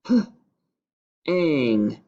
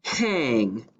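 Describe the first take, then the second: First: "h-ang" split, onset then rime; segmented syllable. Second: Said in the usual way. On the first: Shown as a demonstration. Teacher segmenting "h-ang" for the class. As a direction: pound "h-ang" in two parts. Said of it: "then we're going to pound it". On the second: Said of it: "The first syllable is".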